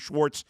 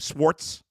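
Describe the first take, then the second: First: The name begins with a 'sh' sound. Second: The name begins with a plain 's' sound. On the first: The speaker calls it right. "calling Jim Schwartz" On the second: The speaker calls it wrong. "a problem with half the members of our show saying"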